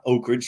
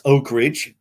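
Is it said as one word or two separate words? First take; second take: one word; two words. First: It is run together quickly as one word. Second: It is said as two separate words. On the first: The speaker calls it wrong. "not Oak Ridge, real fast" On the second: The speaker calls it right. "two words"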